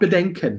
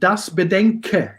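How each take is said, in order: First: The word ends with an n sound. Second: The word ends in a vowel with no n. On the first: The speaker calls it wrong. "not Bedenken" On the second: The speaker calls it right. "it's without N"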